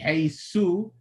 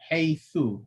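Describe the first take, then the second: First: The final consonant is an 's' sound. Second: The final consonant is a 'th' sound. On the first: The speaker calls it wrong. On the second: The speaker calls it right.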